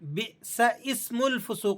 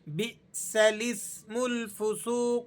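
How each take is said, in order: First: The vowel after 'bis' is said without an L. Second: An L links 'bis' to 'ismul' with no glottal break. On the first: The speaker calls it wrong. "बात साथी गलती करते हैं, बिसइस्मुल फुसूक को पढ़ देते हैं इसे" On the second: The speaker calls it right. "लाम पर जेर लगाकर इसे सीन से मिलाकर पढ़ना है"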